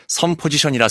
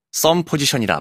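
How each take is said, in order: First: "섬" with a plain, lax s; spelling pronunciation. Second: "썸" with a tense ss; spoken pronunciation. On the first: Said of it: "섬 포지션이라 쓰고". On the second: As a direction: tighten the start of "썸" to a hard ㅆ. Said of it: "썸 포지션이라 발음하면 되는". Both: Shown as a demonstration.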